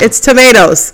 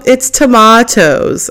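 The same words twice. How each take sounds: First: It is said in an American accent. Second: It is said in a British accent.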